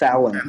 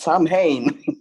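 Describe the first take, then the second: First: It does not sound like a person's name. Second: It sounds like the name Sam Hain. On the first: The speaker calls it right. "It's Samhain" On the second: The speaker calls it wrong. "I always laugh when he goes"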